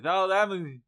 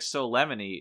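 First: It is said imitating a deaf speaker's voice. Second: It is said in a normal voice.

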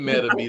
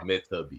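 First: The middle consonant sounds like a quick D. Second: The middle consonant sounds like a clear T. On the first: The speaker calls it wrong. "like you pronouncing it with a D like that because people say it quick" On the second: The speaker calls it right. "It's Meta B"

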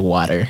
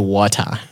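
First: It is said in an American accent. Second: It is said in the speaker's home accent.

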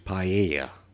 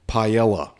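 First: The double L has no L sound. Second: The double L is said as an L. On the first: The speaker calls it right. "It's actually paella. ... no L" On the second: The speaker calls it wrong. "I mispronounced paella"

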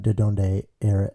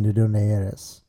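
First: It is said with an Americanized accent. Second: It is said with a native Spanish accent. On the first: The speaker calls it wrong. "instead of" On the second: The speaker calls it right. "you're legitimately asking"

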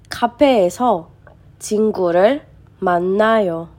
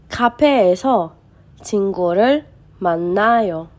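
Both takes have the same delivery.

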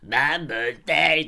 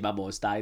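First: It is said as a mocking, dumbed-down imitation. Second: It is said seriously in a Scottish accent.

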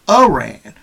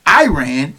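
First: The name gets the native-like pronunciation. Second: The name gets the common anglicized pronunciation. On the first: The speaker calls it right. "which is a proper pronunciation" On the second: The speaker calls it wrong. "have called the country Iran"

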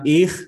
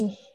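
First: The ch sound is harsh and thick. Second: The ch sound is soft and thin. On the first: The speaker calls it wrong. "bukan ich" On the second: The speaker calls it right. "tapi ich biasa tipis"

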